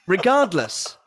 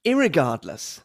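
First: Said in the usual way. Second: American irregardless. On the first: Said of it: "the first version is correct". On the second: Shown as a demonstration. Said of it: "the second version is American".

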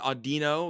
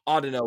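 First: "Audino" with a stressed "dee" in the middle; usual own pronunciation. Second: "Audino" opening like "audio", stress up front; adopted pronunciation. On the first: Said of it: "I've always pronounced it". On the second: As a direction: say "Audino" as AW-dih-no. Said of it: "both of you know sound better". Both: Shown as a demonstration.

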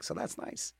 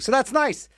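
First: A private little whispered echo; whispered repeat. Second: Said in the usual way. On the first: Acted. DJ echoing himself to listeners in a whisper. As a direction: whisper it back to yourself.

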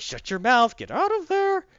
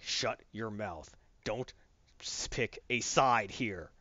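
First: Loud, high-pitched acted shout; retold yelling. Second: Low, slow, quiet menace; stern warning. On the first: Batman yelling at Superman to get out, loud shout. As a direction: yell it, climbing higher as you go. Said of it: "Batman keeps yelling". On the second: Retold or imitated. Batman telling Superman to pick a side, low and stern. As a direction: warn him slowly, voice held down.

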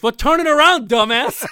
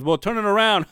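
First: High, loud comic comeback; shouted punchline. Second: Raised but less forceful punchline; half-assed punchline. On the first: Acted. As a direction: belt out the punchline, laughing at the end. Shouted punchline of his joke. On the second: Retold or imitated. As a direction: toss off the punchline as a careless retelling. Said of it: "he tells it half-assed".

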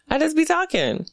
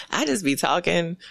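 First: "be" lifted high and leaned on; emphatic repeat. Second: Said in the usual way. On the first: Shown as a demonstration. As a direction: say it again higher, hitting "be".

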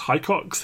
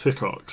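First: "Hickox" said as HIGH-cox, rising; alternative pronunciation. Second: "Hickox" said as HICK-ox, falling; short-i pronunciation. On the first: Unsure of the lieutenant's surname, trying "Hickox" as HIGH-cox. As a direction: say "Hickox" with a long i, like "hike", as a question. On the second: Settling on the lieutenant's surname, "Hickox" as HICK-ox. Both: Real, not acted. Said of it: "something like that".

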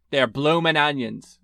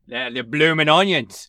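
First: Slow, failed attempt at Australian; bad Australian accent. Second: Louder, more committed Australian accent; passable Australian accent. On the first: Plugging Outback's appetizer to the co-host, in a weak Australian accent. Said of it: "That was a terrible accent". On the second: Shown as a demonstration. Proving the accent to the doubting co-host, Australian accent. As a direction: redo it as a convincing Australian. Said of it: "It's hard to do an Australian accent".

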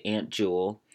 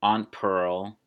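First: "Aunt" said like ant, before Jewel; ant pronunciation. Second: "Aunt" said ahnt, before Pearl; ahnt pronunciation. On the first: Podcaster naming own aunts, "Aunt" as ant. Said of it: "I want to say Aunt Jewel". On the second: Podcaster naming own aunts, "Aunt" as ahnt. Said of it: "you just naturally say it based on their name". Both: Shown as a demonstration.

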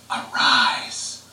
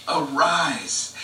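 First: Whispered arise. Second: Said in the usual way. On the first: Acted. Jesus to the little girl, a whispered "arise".

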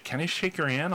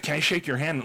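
First: Small, high, softer nervous question; a touch of nerves, pitched up. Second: Said in the usual way. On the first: Retold or imitated. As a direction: imitate a shy fan asking timidly. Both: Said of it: "like, nervously".

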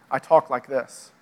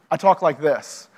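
First: Lower, slower contrasting register; everyday-life voice. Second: Lightly set-apart church register; faith-talk voice. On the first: Speaker showing talk about the rest of life, lower and slower. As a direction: drop lower and ease the pace. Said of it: "about the rest of my life". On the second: Speaker showing how insiders discuss faith, lightly measured register. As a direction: say it as your talking-about-faith voice. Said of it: "When I talk about my faith". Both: Shown as a demonstration.

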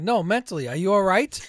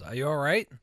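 First: Loud, high, pointed retold question; exasperated sarcastic comeback; sarcastic jab. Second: Retold sarcastic question, louder with a rising end; sarcastic check on someone. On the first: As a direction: press the insult home, much louder. Retold sarcastic comeback, pressing the insult. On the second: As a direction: ask it with mock concern. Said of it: "Being sarcastic".

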